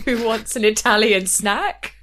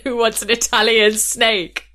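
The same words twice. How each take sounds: First: "snack" with a short a like cat; intended line. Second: "snake" with a long ay vowel; botched line. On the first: Chaperone's suggested line, "snack" said clearly. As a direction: say "snack" crisply, the planned word. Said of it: "he walked in and said snake". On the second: Contestant's entrance slip, "snake" said with long ay. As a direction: land "snake" proudly, the slip. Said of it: "snack vs snake". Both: Retold or imitated.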